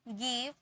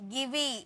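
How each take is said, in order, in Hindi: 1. शब्द 'v' ध्वनि पर खत्म होता है। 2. शब्द के अंत में एक अतिरिक्त 'ee' स्वर जुड़ा है। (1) "ई का कोई साउंड नहीं होता है" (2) "ऐसे नहीं पढ़ेंगे"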